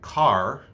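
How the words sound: It ends with a strong, hard R sound. "the R is very, very visible"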